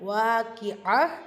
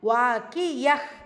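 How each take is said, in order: First: A throat sound comes after the second syllable. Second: A y sound comes after the second syllable. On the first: The speaker calls it right. "ஐன் வாக்கி அஹ்" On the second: The speaker calls it wrong. "அப்படி சொல்லிடக்கூடாது"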